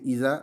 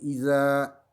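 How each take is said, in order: First: The a vowel is short. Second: The a vowel is lengthened. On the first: The speaker calls it wrong. "au lieu de Isa" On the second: The speaker calls it right. "c'est Isa"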